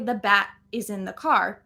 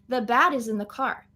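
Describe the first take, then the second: First: The T in 'bat' is a full stop sound. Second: The T in 'bat' is a quick flap. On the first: The speaker calls it wrong. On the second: The speaker calls it right.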